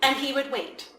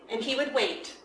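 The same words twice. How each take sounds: The two takes are said the same way.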